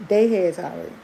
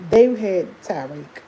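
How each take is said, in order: First: Said in the usual way. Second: They had Tyreek, each word slow and weighted; slow emphatic. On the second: Shown as a demonstration. Telling friends who held her newborn, slow and emphatic. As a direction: lean on "they" slowly.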